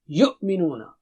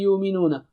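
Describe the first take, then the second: First: The glottal stop in the middle is clear. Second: The glottal stop in the middle is dropped. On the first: The speaker calls it right. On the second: The speaker calls it wrong.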